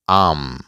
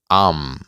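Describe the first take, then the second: Both takes have the same delivery.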